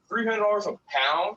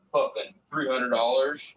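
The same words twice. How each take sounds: First: High, louder, rising disbelief at the price; incredulous. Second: Said in the usual way. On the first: Retold or imitated. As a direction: echo it back, stunned by how cheap. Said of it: "I'm like". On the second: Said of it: "They're like".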